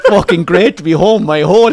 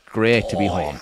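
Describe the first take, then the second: First: Loud, higher, sarcastic retort; mock exasperated outburst through laughter; bitter sarcasm. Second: Low, soft, satisfied murmur; settled, quietly relieved; contented sigh. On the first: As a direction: throw it out scornfully, half laughing. Retells bitter outburst after being snubbed. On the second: Acted. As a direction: say it like savouring a first pint. Contented man sipping his pint.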